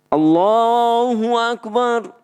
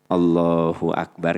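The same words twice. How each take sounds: First: It is said in a loud voice. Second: It is said softly and weakly.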